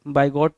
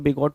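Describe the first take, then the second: First: The first syllable sounds like 'by'. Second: The first syllable sounds like 'big'. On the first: "बाइगॉट पढ़ो" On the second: "कुछ लोग बिगॉट पढ़ेंगे"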